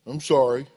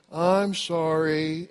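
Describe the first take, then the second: First: Short, low, token sorry; grudging child apology. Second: Long, drawn-out mock-sincere sorry; insincere apology. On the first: Acted. Kid made to apologize after hitting, token apology. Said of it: "what does the kid say". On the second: Child told to sound sincere, drawn-out fake apology. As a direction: stretch it out like a coached child. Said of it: "Say it as if you meant it".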